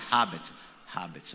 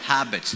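First: Habits in his Indian way, lower; his own way. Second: Habits said as the crowd says it; crowd's way. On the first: Shown as a demonstration. Preacher trying habits his Indian way again. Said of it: "I'll remember that". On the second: Real, not acted. Preacher repeating habits the way the crowd says it. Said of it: "So say habits again".

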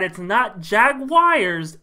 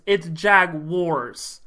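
First: Slow "Jaguars" as "Jag-wires"; wrong Jaguars. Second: Slow "Jaguars" as "Jag-wars"; right Jaguars. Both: Shown as a demonstration. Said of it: "how many times I have to tell".

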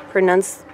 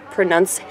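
No difference in how they are said.

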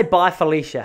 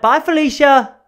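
First: Said in the usual way. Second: High, loud, showy holler; catchphrase call-out. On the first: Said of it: "they say". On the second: Shown as a demonstration. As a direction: shout it out high like a gleeful catchphrase. Demonstrating the catchphrase at full volume.

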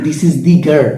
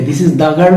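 First: Put-on "This is the girl" with the as a long "dee"; emphatic "thee". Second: Put-on "This is the girl" with the as "daa"; ordinary "thuh". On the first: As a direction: stress "the" in "This is the girl", rhyming it with see. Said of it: "দা উচ্চারণ না করে আমি দি". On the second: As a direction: say "the" in "This is the girl" as "duh". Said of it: "তো কি হবে?". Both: Shown as a demonstration.

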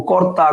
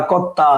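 First: Said in the usual way. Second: কর্তা as "kotta", doubled t; assimilated pronunciation. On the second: Shown as a demonstration. Teacher listing examples for students, assimilated pronunciation. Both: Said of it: "সব হচ্ছে পরাগত সমীভবনের উদাহরণ".

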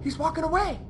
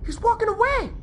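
First: Softer voice, keep it down; hushed, careful not to be noticed; hushed relief. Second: Much higher, squeaky disbelief; excited squeal. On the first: Player watching enemy walk away, hushed. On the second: Player watching enemy walk away, excited squeal. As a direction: squeal it in amazement. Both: Real, not acted.

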